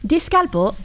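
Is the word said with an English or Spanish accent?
English. It is said with an English accent.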